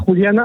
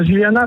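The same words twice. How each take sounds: First: Juliana with the J as a throaty Spanish h; Mexican pronunciation. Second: Said in the usual way. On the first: Real, not acted. Caller naming Juliana on air, Mexican pronunciation. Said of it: "il l'a dit avec l'accent mexicain". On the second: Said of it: "pardon, j'allais dire Juliana".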